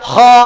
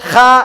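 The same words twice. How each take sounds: First: The letter is said heavy and full. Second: The letter is said light and open. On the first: The speaker calls it right. "Heavy ലെറ്ററായി ഉപയോഗിക്കണം" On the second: The speaker calls it wrong. "മലർത്തി വെച്ച് പറയാൻ പാടില്ല"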